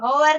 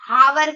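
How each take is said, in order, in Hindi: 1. शब्द की शुरुआत बोला हुआ h और 'o' से होती है। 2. शब्द की शुरुआत बोला हुआ h और 'a' से होती है। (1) "कोई होवर कहता है" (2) "बहुत सारे लोग इसको हावर कहते हैं"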